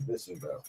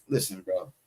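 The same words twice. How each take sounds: First: A breathy whisper with no voice. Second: Low, much softer, muttered to yourself; low aside. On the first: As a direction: repeat it as a secret whisper. Repeats the warning under breath. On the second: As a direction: drop it low and quiet, under your breath. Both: Real, not acted.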